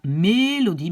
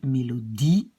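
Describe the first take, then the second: First: "mélodie" with the first syllable stressed, MÉ-lodie; mauvais accent tonique. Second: "mélodie" with stress on the final long I; accent sur le I. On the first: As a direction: punch the MÉ of "mélodie", let "-lodie" fall. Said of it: "on dit pas mélodie". (« mélodie » accentué sur MÉ, la fin qui retombe) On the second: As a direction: hold the last syllable of "mélodie", rising, mélo-DIE. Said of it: "mais on dit mélodie". (« mélodie » accentué sur le DIE final, allongé) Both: Shown as a demonstration.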